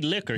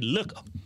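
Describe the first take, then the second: First: The first vowel sounds like the vowel in lick. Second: The first vowel sounds like the vowel in look. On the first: "Daddy wouldn't say liquor" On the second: "He'd say looker"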